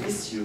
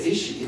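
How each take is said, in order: First: "issue" said as "iss-yoo" with a y sound; British issue. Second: Said in the usual way. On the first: Retold or imitated. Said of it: "he used that word issue". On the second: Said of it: "he didn't say issue".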